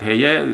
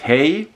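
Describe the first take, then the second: First: The name is said the German way. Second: The name sounds like the English word hey. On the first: The speaker calls it right. "but it's called Heye" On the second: The speaker calls it wrong. "I have uh, heard many people say it Hey"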